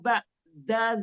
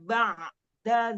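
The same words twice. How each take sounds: First: The middle consonant sounds like a glottal stop. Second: The middle consonant is a throaty ain sound. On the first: The speaker calls it wrong. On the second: The speaker calls it right.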